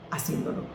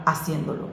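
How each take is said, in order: First: Soft emphatic repeat. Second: Said in the usual way. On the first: Shown as a demonstration.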